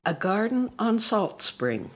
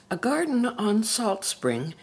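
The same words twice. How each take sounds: The two takes are said the same way.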